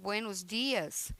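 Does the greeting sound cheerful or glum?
glum. It is said flatly, with a serious voice. The reply comes across as rude and disrespectful. The speaker calls it wrong. "é considerado uma falta de educação, uma falta de respeito"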